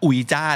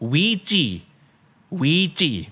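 First: It is pronounced like oo-ee-jah. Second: It is pronounced like wee-jee. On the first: The speaker calls it wrong. "ทุกคนอาจจะเคยเหมือนผมก็คืออ่านว่าอุยจ้านั่นเอง" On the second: The speaker calls it right. "ไม่ใช่คำนี้อ่านว่า"

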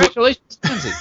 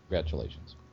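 First: It is said with more gusto and energy. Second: It is said flatly, with little energy.

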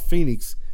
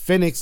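First: The first syllable sounds like fee. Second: The first syllable sounds like fed. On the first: The speaker calls it wrong. "not Phoenix" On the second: The speaker calls it right. "It's Phoenix, like FedEx"

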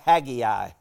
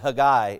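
First: The name is said the Southern US way. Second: The name is said the Hebrew way.

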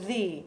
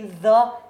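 First: The word is said with a long ee vowel. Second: The word is said with a short uh vowel. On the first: The speaker calls it right. "before a vowel, we would always say the" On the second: The speaker calls it wrong. "It would never be the instruments"

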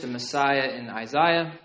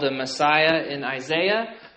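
First: It is said in a British accent. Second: It is said in an American accent.

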